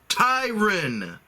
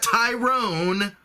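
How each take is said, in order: First: The second syllable rhymes with 'fun'. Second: The second syllable rhymes with 'bone'. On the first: The speaker calls it right. "It's Tyron. ... Ty-run" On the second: The speaker calls it wrong. "Not Tyrone"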